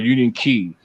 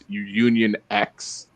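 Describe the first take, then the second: First: The last word sounds like the word key. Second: The last word sounds like the letter ex. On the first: The speaker calls it right. "the pronunciation for it is Key" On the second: The speaker calls it wrong. "it's not X"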